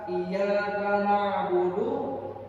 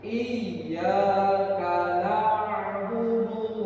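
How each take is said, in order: First: The y sound is short, not held. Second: The y sound is doubled and held longer. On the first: We worship the sunlight. The speaker calls it wrong. "Tergelincir aja, hilang tasdidnya" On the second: Only you do we worship. The speaker calls it right. "kalau pakai tasydid"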